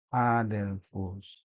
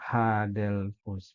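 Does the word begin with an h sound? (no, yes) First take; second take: no; yes. First: The word begins directly with the vowel. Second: The word begins with an h sound. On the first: The speaker calls it right. "bukan, adelphus" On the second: The speaker calls it wrong. "bukan hadelphus"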